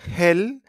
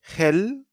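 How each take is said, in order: The two takes are said the same way.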